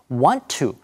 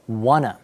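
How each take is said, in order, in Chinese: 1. want 和 to 各自读成完整的单词。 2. want 和 to 连在一起，读成一个弱化的词。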